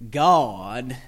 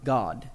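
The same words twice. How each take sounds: First: The word is said in a Southern US accent. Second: The word is said in a general accent. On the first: The speaker calls it wrong. "You don't want to train your child in a narrow dialect" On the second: The speaker calls it right. "adopt something that's more broad"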